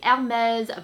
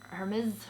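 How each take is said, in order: First: The name has a French pronunciation. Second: The name has a non-French pronunciation. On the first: "c'est Hermes" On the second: "pas Hermes"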